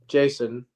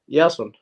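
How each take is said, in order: First: The name is said with an English pronunciation. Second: The name is said with an Icelandic pronunciation. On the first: "Like your name, Jason" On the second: "we have that name in Icelandic, but we pronounce it Jason"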